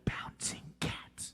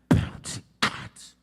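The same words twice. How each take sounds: First: A whisper with plain, soft B and C sounds. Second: A whisper with strongly punched B and C sounds. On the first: "you want to whisper it like this" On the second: "overpronounce the B and the C so it sounds like this"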